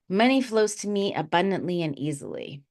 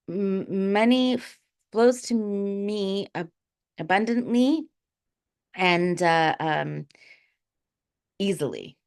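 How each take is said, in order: First: It is said smoothly in a steady voice. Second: It is said with a shaking, stuttering voice.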